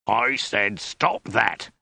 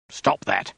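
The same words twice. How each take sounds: First: Very slow, emphatic soldier's order; drawn-out angry command; restrained bellow. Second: Narrated soldier's roar, held back in volume; mock roar at normal volume; firm, mildly angry order; restrained roar. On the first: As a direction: bellow it word by word, without real volume. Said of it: "he bellowed". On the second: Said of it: "roared the soldier". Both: A narrator's reading.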